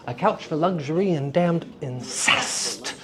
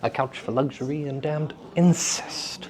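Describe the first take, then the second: First: Damned and incest run together without a pause. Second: There is a pause between damned and incest.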